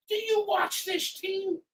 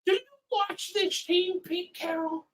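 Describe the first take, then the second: First: Slowed, drawn-out incredulous repeat; slow sarcastic jab. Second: Higher, incredulous dig at the coach; sarcastic jab. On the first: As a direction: spell it out slowly in disbelief. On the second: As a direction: needle him with disbelief. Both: Real, not acted. Fan heckling the coach.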